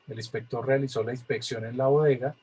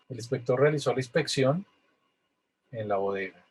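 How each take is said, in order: First: It is read straight through without a pause. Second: It has a pause after "El inspector".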